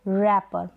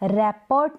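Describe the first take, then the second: First: The final t sound is silent. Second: The final t sound is pronounced. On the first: The speaker calls it right. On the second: The speaker calls it wrong.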